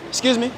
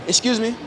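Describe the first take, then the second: No difference in how they are said.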